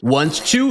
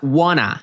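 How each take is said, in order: First: Each word is said separately and fully. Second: The words are run together and reduced.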